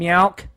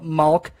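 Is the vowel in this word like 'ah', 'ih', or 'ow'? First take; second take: ow; ah. First: The vowel sounds like 'ow'. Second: The vowel sounds like 'ah'. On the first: "and meowk" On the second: "people always mess up the word milk? They call it malk"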